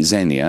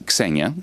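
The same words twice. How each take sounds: First: "Xenia" said the English way, opening on a z sound; English pronunciation. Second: "Xenia" said the Greek way, opening on a k-s cluster; Greek pronunciation. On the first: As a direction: start "Xenia" with a plain buzzing z, no k. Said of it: "In English, you would say Xenia". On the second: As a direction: sound both consonants at the start of "Xenia", k then s. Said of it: "in Greek, it's Xenia". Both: Shown as a demonstration.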